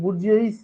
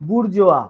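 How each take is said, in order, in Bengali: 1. এটি উচ্চারিত s ধ্বনি দিয়ে শেষ হয়। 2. এটি একটি খোলা স্বরধ্বনিতে শেষ হয়, কোনো s ধ্বনি নেই।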